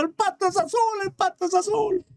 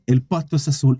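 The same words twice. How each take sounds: First: Very high, thin mock shout; happy donkey shouting. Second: Low-pitched, falling lion reply; lion's verdict. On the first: Donkey leaving happy with the verdict, high gleeful mock shouting. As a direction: squeal it in triumph without real volume. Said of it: "sale contento gritando". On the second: Acted. Lion answering the donkey, low-pitched verdict. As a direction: grant it low, as the king. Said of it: "el león le queda mirando y le dice".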